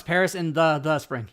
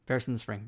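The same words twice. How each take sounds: First: Each word separated, the doubled; reading word by word. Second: Said in the usual way. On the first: Shown as a demonstration. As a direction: stress the extra the. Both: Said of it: "But no".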